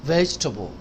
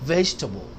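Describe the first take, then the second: Both takes have the same delivery.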